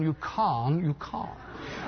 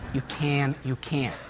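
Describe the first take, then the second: First: It is said in a London accent. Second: It is said in an American accent. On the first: "Or if you come from London" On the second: "Remember I said that was"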